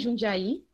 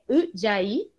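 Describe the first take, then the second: First: The name begins with a 'j' sound. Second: The name begins with a 'u' sound. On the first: The speaker calls it wrong. "não é Jundiaí" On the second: The speaker calls it right. "na verdade é Udiaí, que se pronuncia"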